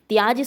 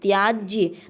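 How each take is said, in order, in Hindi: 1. शब्द 'j' पर समाप्त होता है, अंत में कोई 'ya' नहीं है। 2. शब्द का अंत एक स्पष्ट 'ya' ध्वनि से होता है। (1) "त्याज शब्द अशुद्ध है" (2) "लास्ट में या का उच्चारण होना चाहिए"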